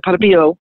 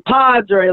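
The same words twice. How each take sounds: First: Put-on quick, run-together Italian-accented name; monk's Italian accent, said in passing; thick Italian accent. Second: Imitated thick Italian accent, drawn out; Italian monk spelling out his name; Padre Pio. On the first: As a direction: imitate a hard-to-follow Italian accent. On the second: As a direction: repeat it emphatically with an Italian accent. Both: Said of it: "such a thick Italian accent".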